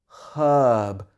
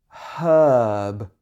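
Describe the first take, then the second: Both takes have the same delivery.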